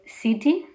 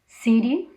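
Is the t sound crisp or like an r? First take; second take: crisp t; like r. First: The t is a crisp, clear t. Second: The t sounds like a quick r. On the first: "instead of" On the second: "the T as an R"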